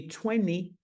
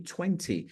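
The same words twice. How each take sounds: First: TWENTY as "twenny", no second T; American TWENTY with the T swallowed. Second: TWENTY with a clearly sounded second T; British TWENTY, both Ts heard. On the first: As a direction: drop the T after N in TWENTY. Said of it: "twenty no inglês americano". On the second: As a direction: pronounce the T after N in TWENTY. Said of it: "twenty no inglês britânico". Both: Shown as a demonstration.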